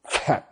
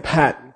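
First: The word begins with an f sound. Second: The word begins with a p sound. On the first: The speaker calls it right. "they say fat" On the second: The speaker calls it wrong. "They don't say pat"

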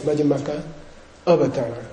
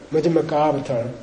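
First: The two words are split with separate vowels. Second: The two words merge into one long vowel. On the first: "But if you split it" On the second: "If the two A's come together, it goes long"

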